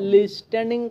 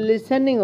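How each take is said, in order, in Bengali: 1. t ধ্বনিটি উচ্চারিত হয়। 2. t ধ্বনিটি নীরব। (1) "টি আছে দে লিস্টেনিং কইতাম না" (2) "টির উচ্চারণিয়া হইতো না"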